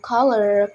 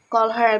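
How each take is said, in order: First: The two words run together as one. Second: The two words are said separately.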